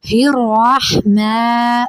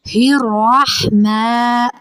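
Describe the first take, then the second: No difference in how they are said.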